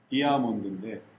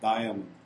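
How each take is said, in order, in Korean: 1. 첫 음절은 'dee'처럼 들려요. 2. 첫 음절은 'dye'처럼 들려요. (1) "디아 하면 A가 사는 건데" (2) "다이 I를 발음하니까 A가 거기에 붙여 들어가요"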